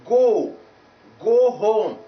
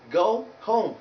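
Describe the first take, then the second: First: "go" as a loud long "gaw"; wrong pure vowel. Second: "go" gliding towards u; slow "go home", vowel sliding into u; diphthong oh. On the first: Teacher rejecting the common error, pure o. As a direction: push "go" out loud on one unglided o. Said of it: "So it is not". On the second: Teacher correcting the error, gliding diphthong. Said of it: "no, but". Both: Shown as a demonstration.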